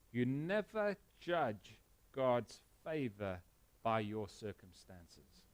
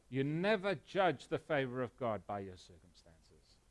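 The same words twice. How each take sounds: First: Slow, with "never" drawn out and stressed; emphatic point. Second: "never" stressed, steadier and fuller than the first take; restated point. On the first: Pastor driving home the main point, slow and stressed. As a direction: lean on "never", then let "by your circumstances" drop soft. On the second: Pastor repeating his key line to the church, firm. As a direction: repeat it firmly with weight on "never". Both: Shown as a demonstration. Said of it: "Did you hear me?".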